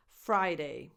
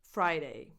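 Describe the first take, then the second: No difference in how they are said.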